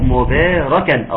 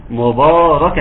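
First: مباركا with a thin, light باء, slow; light baa. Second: مباركا with a thick, emphatic باء; heavy baa. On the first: Teacher showing the correct light baa. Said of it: "الباء مرققة". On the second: Teacher imitating the wrong heavy baa. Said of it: "اوعى تقول لي". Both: Shown as a demonstration.

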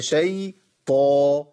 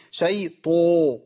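First: Slow شي طو, light sh then heavy open taa; held شي طو with only mild heaviness; correct slight pout. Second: شي طو with over-rounded lips, taa turning to "to"; overdone rounded heaviness on شي طو; exaggerated pout. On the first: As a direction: separate a thin شي from a full, unrounded طو. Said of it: "ده خطا، هي". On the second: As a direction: pout hard on the slow طو. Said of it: "لازم اقول كده". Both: Shown as a demonstration.

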